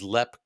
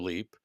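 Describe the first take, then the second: First: The vowel is a short e sound. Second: The vowel is a long ee sound. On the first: This is how people in Ireland say the name. "locally it is known as Lep Castle in Ireland" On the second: This is the American way of saying the name. "you're using the American pronunciation of the word for leap"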